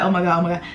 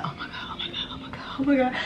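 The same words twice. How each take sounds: First: Said in the usual way. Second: Breathless whispered oh my God; frightened whisper. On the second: Retold or imitated. Hiding behind her locked door, terrified whisper. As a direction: whisper it so the intruder won't hear.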